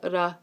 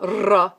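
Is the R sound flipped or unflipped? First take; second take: flipped; unflipped. First: The R is a quick single tap. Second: The R is a smooth sound without a tap. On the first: The speaker calls it right. "which is the ra" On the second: The speaker calls it wrong. "not ra"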